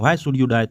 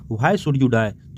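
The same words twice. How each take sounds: First: Said in the usual way. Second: Very slow, each word drawn out; slow recitation. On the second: Shown as a demonstration. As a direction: read the line word by word for the class. Teacher recites poem line slowly.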